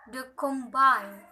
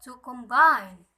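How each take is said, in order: First: Combine as a noun, primary stress on the first syllable; weight the first syllable of combine, secondary on the last. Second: Combine as a verb, second syllable loud and stressed; light first syllable, push the end of combine louder. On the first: Teacher contrasting noun and verb, first-syllable stress on combine. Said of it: "primary, secondary, and unstressed primary". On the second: Teacher contrasting verb with noun, second-syllable stress on combine. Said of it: "unstressed primary indicate the difference". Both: Shown as a demonstration.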